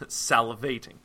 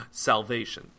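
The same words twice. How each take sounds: First: "salivating" said right, all four syllables sa-li-va-ting, with a laugh; laughing correction. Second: "salvation" said in place of salivation, the li dropped; slip of the tongue. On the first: Teacher laughs and corrects herself to "salivating". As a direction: fix the word with a small laugh, "salivating". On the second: Teacher mispronounces salivation as "salvation". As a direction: trip over the word, saying "salvation". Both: Real, not acted.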